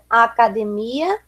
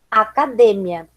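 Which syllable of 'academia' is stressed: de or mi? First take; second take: mi; de. First: The stress falls on the syllable 'mi'. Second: The stress falls on the syllable 'de'. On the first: This is the Portuguese pronunciation. "No português, a sílaba tônica é uma" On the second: This is the Spanish pronunciation. "no espanhol vai ser outra"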